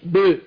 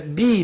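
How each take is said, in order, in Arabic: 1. الحركة بعد «ب» غير واضحة، بين الكسرة والفتحة. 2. الحركة بعد «ب» كسرة واضحة. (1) "مش ب" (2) "اقول بسم الله بي"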